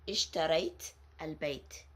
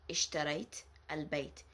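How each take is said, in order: Both takes have the same delivery.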